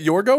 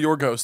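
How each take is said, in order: First: The name ends without an S sound. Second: The name ends with an S sound. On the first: "Do you pronounce the S?" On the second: "Do you pronounce the S?"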